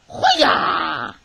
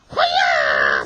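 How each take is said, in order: First: Loud ninja kiai, falling at the end; ninja battle cry. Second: Low, loud hoo-yah shout; ninja sound effect. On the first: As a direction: shout it like a ninja. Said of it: "You like my ninja voice?". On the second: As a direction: bark it like a ninja. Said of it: "sound effect whenever I see ninja penguins". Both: Pretend.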